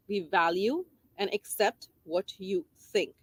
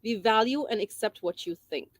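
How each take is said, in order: First: Slowed down, each word weighed; slow emphatic repeat. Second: Said in the usual way. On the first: Shown as a demonstration. Teacher repeating the message to parents, slowly. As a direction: let it sink in, slowly. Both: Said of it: "Message number three".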